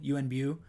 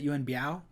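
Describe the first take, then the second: First: The last syllable is a single 'boo' sound. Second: The last syllable glides as 'byow'. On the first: This is how many other people say it. The speaker calls it right. "I've heard many people say pronounce it Bu" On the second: This is how the speaker has always said it. The speaker calls it wrong. "I've always pronounced it Yuen Biao"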